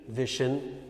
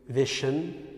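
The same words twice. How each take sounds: No difference in how they are said.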